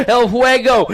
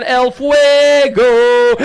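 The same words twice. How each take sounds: First: Said in the usual way. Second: El Fuego held long and louder for the crowd; drawn-out hype call. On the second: Acted. Announcer stretching El Fuego over the PA, slow and loud. Announcer calling rider nickname.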